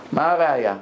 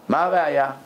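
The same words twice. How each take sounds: The two takes are said the same way.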